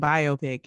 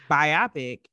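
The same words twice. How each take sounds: First: Biopic as BYE-oh-pick; biopic as bio plus pick; other pronunciation. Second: Biopic as bye-OP-ic; biopic with stress on OP, like myopic; one pronunciation. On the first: Co-host summing up the difference, biopic as BYE-oh-pick. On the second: Co-host summing up the difference, biopic as bye-OP-ic. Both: Shown as a demonstration. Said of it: "in pronunciation".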